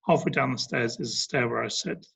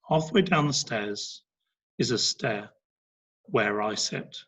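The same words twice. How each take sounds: First: It is read quickly without any pauses. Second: It is read slowly with natural pauses. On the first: The speaker calls it wrong. "So it's not" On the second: The speaker calls it right. "It's much slower because I'm pausing at the right places"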